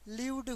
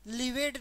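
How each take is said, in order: First: The ending is clipped with no extra syllable. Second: The ending is said as an extra syllable. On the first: The speaker calls it right. "लिव्ड होगा" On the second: The speaker calls it wrong. "लिवेड नहीं होगा"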